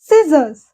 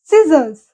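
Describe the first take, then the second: The two takes are said the same way.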